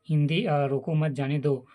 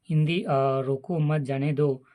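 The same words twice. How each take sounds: The two takes are said the same way.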